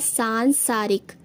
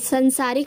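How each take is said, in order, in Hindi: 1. पहला स्वर दीर्घ है। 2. पहला स्वर ह्रस्व है। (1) "शुद्ध रूप इसका हो जाएगा" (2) "संसारिक नहीं होता"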